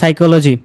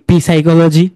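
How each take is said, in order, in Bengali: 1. এটা সরাসরি S শব্দ দিয়ে শুরু হয়। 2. শুরুতে P শব্দ উচ্চারণ করা হয়।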